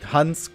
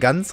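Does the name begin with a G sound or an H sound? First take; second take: H sound; G sound. First: The name begins with an H sound. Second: The name begins with a G sound. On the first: "statt Hans" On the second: "kommt da Gans raus"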